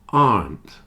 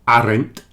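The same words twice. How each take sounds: First: It is said as one syllable. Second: It is said as two syllables. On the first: The speaker calls it right. "only has one syllable" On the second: The speaker calls it wrong.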